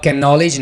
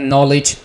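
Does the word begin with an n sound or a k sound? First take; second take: k sound; n sound. First: The word begins with a k sound. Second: The word begins with an n sound. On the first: The speaker calls it wrong. "तो आप कैन नॉलेज नहीं कहेंगे" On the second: The speaker calls it right. "के को silent रखेंगे"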